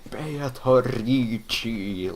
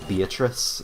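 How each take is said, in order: First: The name ends with an added 'chee' sound. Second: The name ends with a plain 's' sound. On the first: "hearing them go Beatrici like some kind of Italian" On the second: "reading Beatrice"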